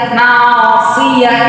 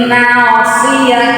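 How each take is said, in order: The two takes are said the same way.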